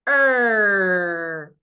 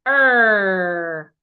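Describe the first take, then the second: The two takes are said the same way.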